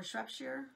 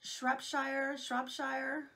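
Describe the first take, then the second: First: Shropshire ending in a reduced "sher"; alternative pronunciation. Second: Shropshire ending like "shire" in full; Shropshire, tentative, with a long "shy-er" ending; butchered pronunciation. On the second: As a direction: say Shropshire with the end rhyming with "fire". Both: Shown as a demonstration. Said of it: "I'm gonna butcher this one".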